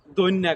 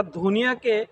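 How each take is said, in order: First: দৈন্যা with plain d and doubled n; Gazipur dialect. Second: Said in the usual way. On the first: Shown as a demonstration. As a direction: say দৈন্যা as two syllables, "doin-nya". (গাজীপুরের উচ্চারণে দৈন্যা, ধ-এর বদলে দ) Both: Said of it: "গাজীপুরের আঞ্চলিক ভাষায়".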